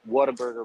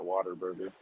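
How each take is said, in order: First: The name begins with a clear 'what a' sound. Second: The name begins with a 'water' sound. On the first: This is the name as it is written. "but it's Whataburger" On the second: This is how local people say it. "but they pronounce it Waterburger"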